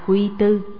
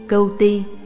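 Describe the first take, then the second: First: The name is read with the syllables Quy Tu. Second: The name is read with the syllables Cuu Ti. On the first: The speaker calls it wrong. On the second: The speaker calls it right.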